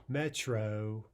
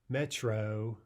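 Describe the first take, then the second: No difference in how they are said.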